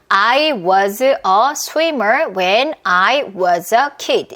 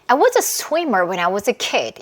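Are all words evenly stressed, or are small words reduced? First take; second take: evenly stressed; reduced. First: Every word gets an even, full beat. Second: Small words are swallowed and it is fast.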